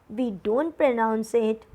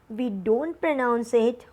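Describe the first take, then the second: Both takes have the same delivery.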